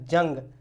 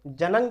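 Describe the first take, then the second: First: The n is only a nasal sound. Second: The n is a full consonant with a vowel. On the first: The speaker calls it right. "नून की आवाज़ नाक से निकलती है" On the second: The speaker calls it wrong. "अगर हम पूरे नून पूरा नून पढ़ेंगे तो इसको हम कहेंगे जनंग"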